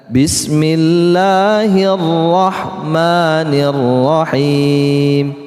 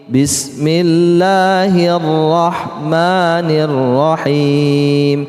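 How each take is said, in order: The two takes are said the same way.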